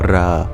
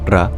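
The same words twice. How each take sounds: First: The vowel is long and drawn out. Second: The vowel is short. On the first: The speaker calls it right. "the A sound that follows is prolonged" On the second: The speaker calls it wrong. "It's not Ra"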